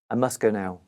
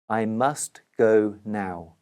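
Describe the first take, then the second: First: It is said quickly with must reduced. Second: It is said slowly with each word clear.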